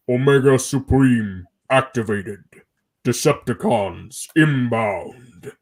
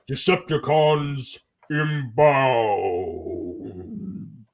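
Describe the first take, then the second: First: Deep, slow robot announcement; booming giant robot voice; Omega Supreme voice. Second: Robot voice. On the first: Acted. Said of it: "the line I did was". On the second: Retold or imitated. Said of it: "he went like".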